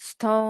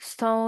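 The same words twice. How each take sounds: Both takes have the same delivery.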